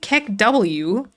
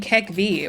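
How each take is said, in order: First: The final letter is said as an English letter. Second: The final letter is said as a German letter. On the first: The speaker calls it wrong. "That's not the right vibe" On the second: The speaker calls it right. "the German way of saying it"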